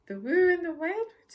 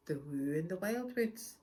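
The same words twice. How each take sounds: First: High, loud startled splutter. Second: Said in the usual way. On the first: Acted. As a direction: blurt it out in alarm. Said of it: "he spluttered".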